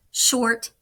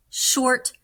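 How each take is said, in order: Both takes have the same delivery.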